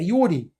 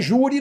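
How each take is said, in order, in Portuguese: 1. A palavra começa com um som de 'y'. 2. A palavra começa com um som de 'zh'. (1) "É iure" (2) "Não é júri, não"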